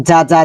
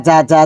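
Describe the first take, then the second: No difference in how they are said.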